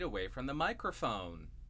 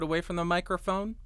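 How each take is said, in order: First: The voice is recorded about four feet away. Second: The voice is recorded about one foot away. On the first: "and about 4 feet away from the microphone" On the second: "About 1 foot away from the microphone"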